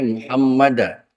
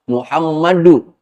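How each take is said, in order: First: The word ends with an 'a' vowel. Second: The word ends with an 'u' vowel. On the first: The speaker calls it wrong. "nggak boleh Muhammada" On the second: The speaker calls it right. "itu harus dibaca dhammah Muhammadu"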